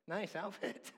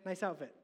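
First: It is said in a flirtatious, suggestive tone. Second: It is said in a casual, friendly tone.

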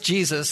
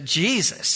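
First: It is said in a plain, general accent. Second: It is drawn out in a Southern accent.

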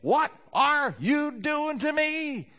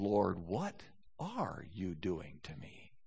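First: It is said in an angry, accusing tone. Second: It is said in a humble, inquiring tone.

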